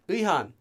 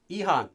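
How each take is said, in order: First: The word is pronounced loosely, as in conversation. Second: The word is pronounced loosely, as in conversation.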